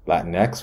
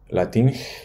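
First: The word is pronounced in an English way. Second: The word is pronounced in a Spanish way.

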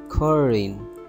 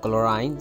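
First: No L sound is pronounced in the word. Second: An L sound is pronounced in the word. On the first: The speaker calls it right. "don't pronounce L sound in it, just say chlorine" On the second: The speaker calls it wrong. "Don't say chlorine"

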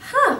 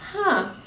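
First: It is said with a smile. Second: It is said without a smile.

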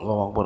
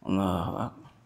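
First: It is said quickly and hurriedly. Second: It is said slowly and lazily, yawning. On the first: The prayer is rushed. "bukan tangkas cepat, ... bukan begitu" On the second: The worshipper is lazy. "sambil nguap ... Malas"

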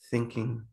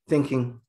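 First: The word is said softly and gently. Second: The word is said in a harsher, firmer tone. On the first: The speaker calls it right. "you want to use a very soft tone" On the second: The speaker calls it wrong. "as opposed to"

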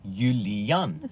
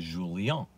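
First: The name is said with a Dutch pronunciation. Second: The name is said with a Portuguese pronunciation. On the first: "in Holland, if they try to pronounce the German version of Julian, they say Julian" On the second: "If you go to Portugal, they'll say Julian"

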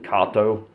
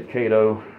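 First: The name is said with a Czech pronunciation. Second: The name is said with an American pronunciation. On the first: "in the Czech Republic, they pronounce it Kato" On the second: "Here in the United States, we all say Cato"

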